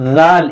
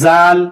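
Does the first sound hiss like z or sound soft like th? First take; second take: soft th; hissing z. First: The first sound is soft, with no hiss. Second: The first sound hisses like a z. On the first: The speaker calls it right. "इसमें भी हमें नरमी से पढ़ना है" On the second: The speaker calls it wrong. "इसमें सीटी की आवाज ना पैदा हो, ये गलत है"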